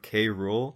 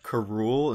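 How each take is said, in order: First: The K is said as a separate letter. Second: The K blends into the name as one word. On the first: This is the canon way to say the name. The speaker calls it right. "instead of" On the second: This is how the show says the name. The speaker calls it wrong. "I don't like how they say"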